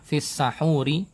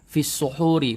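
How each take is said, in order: First: The first vowel of the word is 'a'. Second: The first vowel of the word is 'u'. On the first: It means the food eaten before dawn. "sinnya di fathah" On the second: It means the time before dawn. "pakai dhammah"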